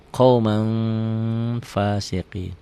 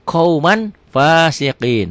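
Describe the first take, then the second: First: QAUMAN ending in a long nasal hum; very slow, hold "qaumang" before fasiqin; nasal ikhfa. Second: QAUMAN with a clear n, high and loud; written form. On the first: Teacher shows the reading, long nasal hold. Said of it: "Bunyi M tapi bindeng tetap ya". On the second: Teacher reads the example as written, clear n. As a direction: sound the N firmly, slow QAUMAN FASIQIN. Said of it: "Bunyi M tapi bindeng". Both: Shown as a demonstration.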